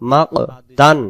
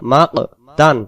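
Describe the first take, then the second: No difference in how they are said.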